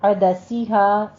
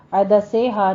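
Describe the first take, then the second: First: عدسیہا slow, with a clear long "see"; عدسیہا recited with a pure "ee"; correct sharp سین. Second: عدسیہا with سی loosened to "say"; wrong slack vowel. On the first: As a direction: keep سی in عدسیہا sharp and drawn out. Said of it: "sharp رکھیے گا آواز کو". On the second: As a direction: misread عدسیہا as "adasay-ha". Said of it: "نہیں". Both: Shown as a demonstration.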